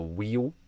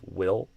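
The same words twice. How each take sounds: First: It has an e vowel and ends in u. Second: It has a kit vowel and ends in dark L. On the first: The speaker calls it wrong. "you'll often hear a e u pattern" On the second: The speaker calls it right. "we have a kit vowel followed by a dark L"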